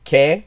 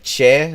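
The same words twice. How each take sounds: First: The syllable is said in Classical Latin style. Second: The syllable is said in Italian style. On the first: The speaker calls it right. "when in fact it should be" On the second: The speaker calls it wrong. "like it's Italian"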